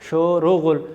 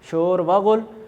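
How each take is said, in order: First: The words are joined by an 'o' sound. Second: A separate 'va' sits between the two words. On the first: This is how it is read aloud. "पढ़ेंगे शोरो गुल" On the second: This is how it is written. "लिखेंगे शोर व गुल"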